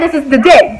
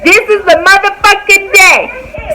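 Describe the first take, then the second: First: Said in the usual way. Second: High, drawn-out stress on "motherfucking day"; emphatic. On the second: Real, not acted. Telling viewers this is the day she quit, emphatic. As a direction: hammer every word of "This is the motherfucking day".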